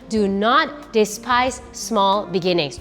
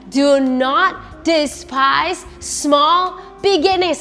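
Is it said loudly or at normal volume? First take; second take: normal volume; loudly. First: It is said at normal volume. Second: It is said very loudly.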